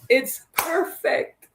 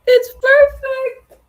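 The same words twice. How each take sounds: First: Said in the usual way. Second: Shrieking it's perfect with glee; high excited squeal. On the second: Real, not acted. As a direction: sing it out high and loud, thrilled. Squeals to viewers, delighted.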